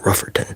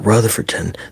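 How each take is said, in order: First: The name is shortened, with an f sound. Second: The name is said in full with a th sound. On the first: "some of them are even worse, and they'll just say Rufferton" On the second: "instead of saying Rutherford or Rutherfordton"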